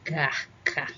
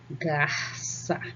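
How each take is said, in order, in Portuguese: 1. A consoante do meio tem um som forte de K. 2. A consoante do meio tem um som sibilante de S. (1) "sem a cedilha. Fica garca" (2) "quando eu coloco a cedilha, observem, ó, garça. ... fica com som de S"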